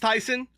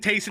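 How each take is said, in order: First: The first vowel sounds like 'tie'. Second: The first vowel sounds like 'tay'. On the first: The speaker calls it right. "apparently it's Tyson" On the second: The speaker calls it wrong. "I was saying Tayson the entire last time"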